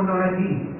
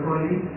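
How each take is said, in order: First: The words are articulated clearly and distinctly. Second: The words are mumbled and hard to make out. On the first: The speaker calls it right. "Clear saya cakap" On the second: The speaker calls it wrong. "Tak clear, tak jelas"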